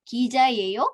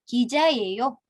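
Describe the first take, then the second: First: The voice rises at the end. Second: The voice stays level or falls at the end. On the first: It is a question. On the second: It is a statement.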